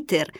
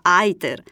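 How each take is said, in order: First: It is pronounced with Italian, Latin-style sounds. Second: It is pronounced with English-style sounds. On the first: The speaker calls it right. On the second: The speaker calls it wrong.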